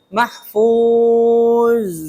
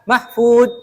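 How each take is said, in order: First: It ends in a flowing, hissing z sound. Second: It ends in a stopped d sound. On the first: The speaker calls it right. "Karena za sifatnya rokhwah jadi mengalir tuh" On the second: The speaker calls it wrong. "Jangan mahfud"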